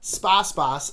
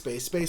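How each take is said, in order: First: The name is said like spa spas. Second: The name is said like space base. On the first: The speaker calls it right. "Spa Spas, not Space Space" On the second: The speaker calls it wrong. "Space Space is the incorrect um, uh, pronunciation"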